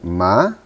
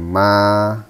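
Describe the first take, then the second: First: The pitch rises upward. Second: The pitch stays level and flat. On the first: It means fiber. "ma dengan naik" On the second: It means mother. "Nada pertama itu nada yang datar"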